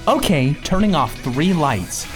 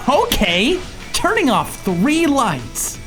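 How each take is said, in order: First: The voice sounds flat, with little energy. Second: The voice sounds lively, with more energy. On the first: The assistant sounds lifeless. "It was when I left" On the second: The assistant seems alive, in a scary way. "she has more life in her voice"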